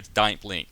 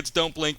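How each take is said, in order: First: It is said in an Australian accent. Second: It is said in an American accent. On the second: "here in America"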